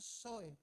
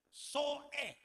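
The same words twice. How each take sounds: First: The two vowels run together without a catch. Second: A glottal catch separates the two vowels. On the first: The speaker calls it wrong. "Jangan bilang soe" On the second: The speaker calls it right. "Sebutannya mesti jelas, Soe. Ada koma sedikit di atas"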